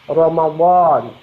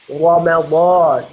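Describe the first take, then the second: The two takes are said the same way.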